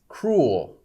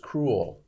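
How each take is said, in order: First: The word is said with one syllable. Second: The word is said with two syllables. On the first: "some people just say a single syllable" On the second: "Some people say two syllables"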